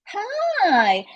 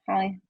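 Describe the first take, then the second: First: The greeting sounds lively and excited. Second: The greeting sounds quiet and restrained. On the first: Old friends are happy to meet again. "close friends who haven't seen each other in a long time" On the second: The people barely know each other. "this morning in the elevator"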